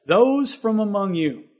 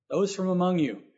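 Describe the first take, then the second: First: "Those" hit slow and louder, the rest drawn out after it; stress on THOSE. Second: Said in the usual way. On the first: Shown as a demonstration. Preacher to his congregation, quoting scripture with weight on "Those". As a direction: lean hard on "Those", slowing the whole phrase. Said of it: "And then he says". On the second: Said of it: "He didn't say all of you".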